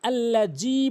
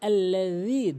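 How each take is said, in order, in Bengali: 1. মাঝের ব্যঞ্জনটি z-এর মতো শোনায়। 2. মাঝের ব্যঞ্জনটি জিব্বা দাঁতের ওপর রেখে তৈরি হয়। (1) "ভুলটি আল্লাজি বলে" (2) "এখানে বলতে হবে আল্লাজি, জিব্বার আগা এবং দাঁতের আগা"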